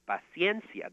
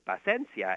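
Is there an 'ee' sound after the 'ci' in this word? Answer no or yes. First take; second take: yes; no. First: The word is said with the 'i' sound. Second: The word is said without the 'i' sound. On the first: The speaker calls it right. "That's how you officially pronounce it in Spanish" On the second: The speaker calls it wrong. "I just didn't put in the I in paciencia"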